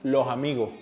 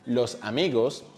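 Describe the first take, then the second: First: The S sound is softened to a breathy h. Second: The S sounds are pronounced as clear s.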